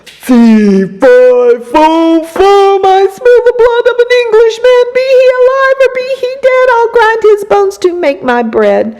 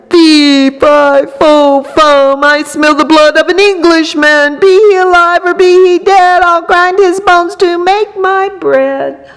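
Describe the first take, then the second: First: Giant roar, much higher, louder and fast; thundering giant. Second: Booming giant roar, louder and higher; thundering giant. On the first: Giant sniffing the air thunders at Jack. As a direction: boom the chant out like a giant. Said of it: "and he thundered". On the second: Giant thundering at the hidden boy. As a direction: thunder it out like a huge angry giant. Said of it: "stomped into the castle and thundered". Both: A narrator's reading.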